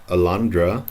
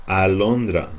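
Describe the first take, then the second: First: Alondra with English schwa vowels and a rising end; wrong English alondra. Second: Alondra with clear Spanish a vowels, falling; pure Spanish vowels in alondra; correct Spanish alondra. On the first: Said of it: "not alondra". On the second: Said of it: "it's alondra". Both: Shown as a demonstration.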